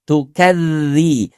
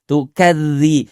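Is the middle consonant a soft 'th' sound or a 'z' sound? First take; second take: th; th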